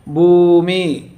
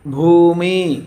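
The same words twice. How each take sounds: First: భూమి said very slowly, with the భూ vowel stretched far; very slow long vowel. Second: Said in the usual way. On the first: Shown as a demonstration. Teacher to pupils stretching భూమి very slowly for the long ఊ. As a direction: draw out the ఊ in భూమి as long as you can. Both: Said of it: "కొమ్ము దీర్ఘము ఎలా ఉచ్చరిస్తున్నా గమనించాలి".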